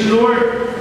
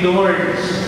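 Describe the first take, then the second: First: The name is said the French way. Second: The name is said the common local way. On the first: "in French, it's Lourdes" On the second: "people would say Lourdes"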